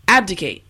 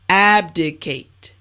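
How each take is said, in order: First: The word is said at a normal pace. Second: The word is said at a slow pace. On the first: "now let's say it at a normal pace" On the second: "Now repeat after me"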